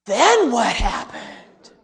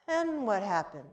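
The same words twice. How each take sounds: First: Slow, louder wondering ask; breathless little girl wanting more; awed child question. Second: Softer, timid asking; whisper-like curious boy; hushed child question. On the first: Girl asking in awe. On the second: Boy peeking from couch softly. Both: Retold or imitated.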